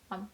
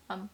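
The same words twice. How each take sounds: No difference in how they are said.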